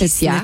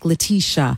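First: The name is pronounced the Romance-language way. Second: The name is pronounced the English way. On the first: The speaker calls it right. "in French and Italian and Spanish" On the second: The speaker calls it wrong. "But in English, everyone is like"

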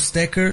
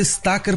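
First: The first vowel is a closed, reduced sound. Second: The first vowel is an open a sound. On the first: The speaker calls it wrong. "e não stacker" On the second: The speaker calls it right. "tinha que se dizer stacker porque era com A aberto"

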